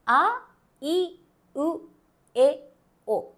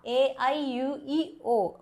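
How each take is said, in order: First: The vowels sound like short, pure Japanese vowels. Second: The vowels sound like English letter names. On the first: The speaker calls it right. "need to pronounce as" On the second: The speaker calls it wrong. "But we don't pronounce like that"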